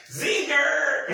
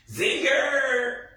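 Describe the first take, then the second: First: Squealed zinger. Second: Shouted zinger. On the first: Cracking herself up, squeals "Zinger!" very high. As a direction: shriek "Zinger!" breaking into laughter. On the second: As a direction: yell "Zinger!" up high like a cheer. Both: Retold or imitated. Cheering a comeback in the scene.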